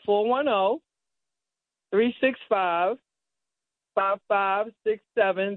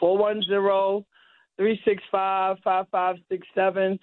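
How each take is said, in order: First: The number is said slowly and carefully. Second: The number is said at normal speed.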